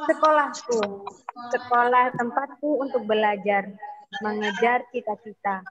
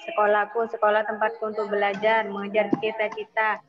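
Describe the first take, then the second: First: The reading has varied, lively pitch and intonation. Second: The reading is flat with little pitch movement. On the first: The speaker calls it right. "Membacanya dengan intonasi, dengan sebuah gaya" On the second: The speaker calls it wrong. "Jadi saat baca bukan gini ya"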